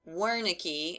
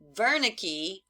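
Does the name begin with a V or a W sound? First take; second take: W sound; V sound. First: It begins with a W sound. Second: It begins with a V sound.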